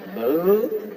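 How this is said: The voice rises at the end.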